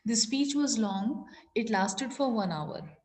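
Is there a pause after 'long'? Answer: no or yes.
yes. There is a short pause after 'long'. The speaker calls it right. "Long के बाद मैंने थोड़ा सा ही पॉज लिया"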